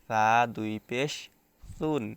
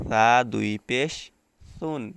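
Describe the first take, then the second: First: The syllable starts with a soft lisped th. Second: The same.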